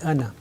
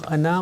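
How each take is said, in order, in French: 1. La voyelle finale reste brève. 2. La voyelle finale est allongée. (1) "on dit Anna" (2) "au lieu de dire Anna"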